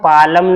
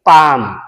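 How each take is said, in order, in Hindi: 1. "palm" शब्द में L सुनाई देता है। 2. "palm" शब्द में L साइलेंट है। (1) "इसे हम पालम नहीं पढ़ेंगे" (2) "इसे हम क्या पढ़ेंगे, पाम"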